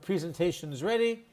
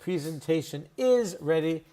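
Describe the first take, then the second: First: The word is is contracted onto presentation. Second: The word is is said in full. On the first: "is just a contraction we all use" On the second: "is standard English"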